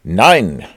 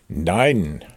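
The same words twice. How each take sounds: First: Loud, single-word refusal; voice answering back. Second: Lightly disguised, more subdued no; different voice. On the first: Hidden Rabbit answers from inside the hole, loud refusal. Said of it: "sagte eine Stimme". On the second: Rabbit hides his identity from Pooh, lightly disguised voice. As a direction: deny it in a slightly altered voice. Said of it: "diesmal mit einer anderen Stimme". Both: A narrator's reading.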